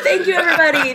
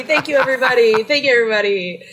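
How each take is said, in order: First: Mock celebrity thanks. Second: Said in the usual way. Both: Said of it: "cheering herself on in the background".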